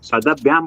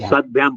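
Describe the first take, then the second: First: A short vowel follows the d sound. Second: The d joins bh with no vowel. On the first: The speaker calls it wrong. "सदभ्याम बोलने से द में अ लग रहा है ना" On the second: The speaker calls it right. "द द आधा बोलने का है"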